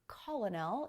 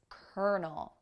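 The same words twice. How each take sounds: First: The word is sounded out as it is spelled. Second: The word sounds quite unlike its spelling. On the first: The speaker calls it wrong. "it's not colonel" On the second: The speaker calls it right. "pronounced completely differently than it looks"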